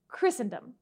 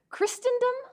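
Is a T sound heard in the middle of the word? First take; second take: no; yes. First: No T sound is heard in the middle. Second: A T sound is heard in the middle. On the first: The speaker calls it right. "It is pronounced Christendom" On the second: The speaker calls it wrong. "how did you pronounce it?"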